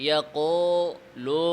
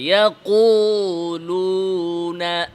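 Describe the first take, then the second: First: The u vowels sound open, like o. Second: The u vowels are fully rounded, lips pushed forward. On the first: The speaker calls it wrong. "এটারে অনেকে ইয়াকো লো" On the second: The speaker calls it right. "চাপে আনতে হবে"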